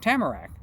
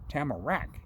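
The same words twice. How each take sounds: First: The last syllable is not stressed. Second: The last syllable is stressed. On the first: The speaker calls it wrong. "not Tamarack" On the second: The speaker calls it right. "He wanted the emphasis on that last syllable"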